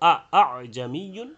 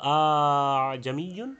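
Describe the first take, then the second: First: The second hamza is a full glottal stop. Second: The second hamza becomes a long vowel. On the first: "হামজা করা মানে তাহকিক করলে দুইটা হতো" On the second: "আলিফ করলে হতো"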